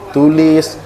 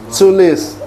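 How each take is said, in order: First: The t is plain, in an Indonesian accent. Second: The t is breathy, in an English accent. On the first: "Kalau kita kan dia nggak glotal" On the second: "dengan nada bahasa Inggris"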